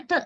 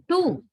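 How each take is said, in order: First: "t" as a short, weak "tuh"; reduced schwa. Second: "tu" with a strong, full "oo"; higher, emphatic "tu" with the oo unreduced; full oo vowel. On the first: Teacher showing students the reduced vowel, weak schwa. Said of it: "into schwa, a sound". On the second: Teacher showing how Sri Lankans say it, full oo. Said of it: "not tu, like Sri Lankans". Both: Shown as a demonstration.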